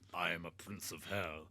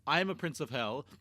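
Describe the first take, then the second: First: It is said in a put-on character voice. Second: It is said in his normal voice.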